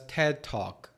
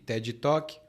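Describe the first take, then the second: First: It is said with an English accent. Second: It is said with a Brazilian Portuguese accent.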